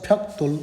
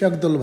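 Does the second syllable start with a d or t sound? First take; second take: t; d. First: The second syllable starts with a t sound. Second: The second syllable starts with a d sound. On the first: This is the better pronunciation. The speaker calls it right. "फ्याक्तोल उच्चारण गरियो भने better हुन्छ" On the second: This is the everyday way people say it. The speaker calls it wrong. "हामी generally फ्याक्दोल भन्छौँ"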